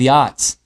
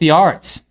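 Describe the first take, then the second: First: It is said in a New England accent. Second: It is said in his usual, non-New England accent.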